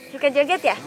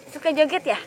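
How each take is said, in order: Both takes have the same delivery.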